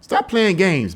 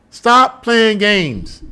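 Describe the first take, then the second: First: Said in the usual way. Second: Slow emphatic. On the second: Shown as a demonstration. Scolding the public, very slow and stern. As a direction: Stop playing games stretched out very slowly, each word hit. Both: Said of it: "repeats demand for emphasis".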